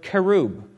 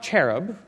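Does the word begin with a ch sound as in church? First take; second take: no ch sound; ch sound. First: It does not begin with a church-like ch. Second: It begins with a ch as in church. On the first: The speaker calls it right. "the word itself is the word cherub" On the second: The speaker calls it wrong. "It's not cherub. C-H is cha, as in church"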